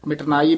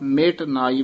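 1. ਇਹ ਇੱਕ ਜੁੜੇ ਹੋਏ ਸ਼ਬਦ ਵਾਂਗ ਬੋਲਿਆ ਜਾਂਦਾ ਹੈ। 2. ਇਹ ਦੋ ਵੱਖਰੇ ਹਿੱਸਿਆਂ ਵਾਂਗ ਬੋਲਿਆ ਜਾਂਦਾ ਹੈ। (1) "ਮਿਟਨਾਈ ਪਾਠ ਨਹੀਂ ਕਰਨਾ" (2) "ਮਿਟ ਨਾਈ ਵੱਖਰਾ ਕਰਾਇਆ ਜਾਂਦਾ"

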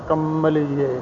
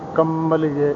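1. ਪਹਿਲਾ ਅੱਖਰ ਅਨੁਨਾਸਿਕ ਅਤੇ ਲੰਮਾ ਹੈ। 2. ਪਹਿਲਾ ਅੱਖਰ ਅਨੁਨਾਸਿਕ ਅਤੇ ਲੰਮਾ ਹੈ।

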